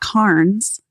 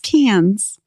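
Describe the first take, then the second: First: It is said with a non-Australian pronunciation. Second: It is said with the Australian pronunciation. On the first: The speaker calls it wrong. "It's not Carns" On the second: The speaker calls it right. "It's Cans"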